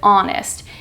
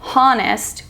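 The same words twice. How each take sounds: First: The initial H is silent. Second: The initial H is sounded. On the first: The speaker calls it right. "we pronounce it honest" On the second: The speaker calls it wrong. "We don't pronounce it honest"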